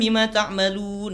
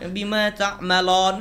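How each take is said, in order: First: The last vowel is a u sound. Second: The last vowel is an o sound. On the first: The speaker calls it right. "Yang benar kan" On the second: The speaker calls it wrong.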